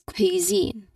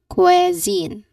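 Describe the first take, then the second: First: The long E sound is in the second syllable. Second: The long E sound is in the first syllable. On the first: The speaker calls it right. "The correct one is cuisine. The long E sound should be at the second syllable" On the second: The speaker calls it wrong. "people say usually mistakenly say it as cuisine. The relaxed long E sound is at the beginning"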